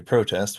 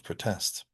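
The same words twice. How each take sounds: First: PRO-test, stressed on the first syllable; noun stress. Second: Pruh-TEST, stressed on the second syllable; verb stress. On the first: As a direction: lean on PRO in protest. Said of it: "which is the noun form". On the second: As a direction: reduce the first vowel of protest and lean on TEST. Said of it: "which is the noun form of". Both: Shown as a demonstration.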